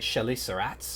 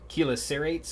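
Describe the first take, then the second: First: The word is pronounced in a French way. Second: The word is pronounced in an English way.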